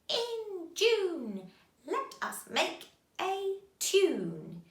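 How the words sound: It is said in a cackling witch voice. "Can you say it in a witch's voice?"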